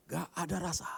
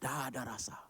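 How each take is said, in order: First: Lamenting. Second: Soft, voiceless whisper; whispered lament. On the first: Speaker complaining to the audience about bland food, lamenting. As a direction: stretch "Nggak" in a high lament. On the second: Speaker confiding how tasteless the diet is, whispered lament. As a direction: drop to a despairing stage whisper. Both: Acted.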